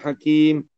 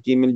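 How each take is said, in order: First: The word stops cleanly on the final m. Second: The word runs on with a vowel after m. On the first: The speaker calls it right. "diakhiri dengan huruf mim" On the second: The speaker calls it wrong. "dia tak kena gitulah"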